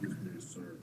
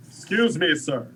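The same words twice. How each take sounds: First: Soft, hushed library voice; library whisper. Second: Loud, sharp call across the room. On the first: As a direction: drop to a hushed library murmur. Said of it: "Keep it down, friend". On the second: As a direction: call out too loud for a library. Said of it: "It's not a library voice". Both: Acted.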